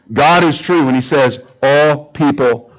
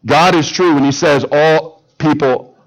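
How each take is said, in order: Both takes have the same delivery.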